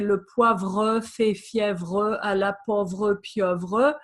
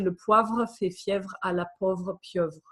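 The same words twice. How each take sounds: First: The sentence is spoken slowly and carefully. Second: The sentence is spoken at normal conversational speed. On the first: "if I was really pronouncing uh, more slowly" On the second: "In more normal French"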